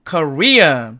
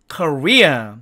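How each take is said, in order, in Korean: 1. 미국식 영어 발음이에요. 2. 미국식 영어 발음이에요.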